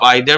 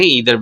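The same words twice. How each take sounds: First: Either with a long "eye" sound at the start; either, eye-ther. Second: Either with a long "ee" sound at the start; either, ee-ther. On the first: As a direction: say either as aɪ-dhər. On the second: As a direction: say either as ee-dhər. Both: Shown as a demonstration. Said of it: "इसका pronunciation दो तरीके से होता है".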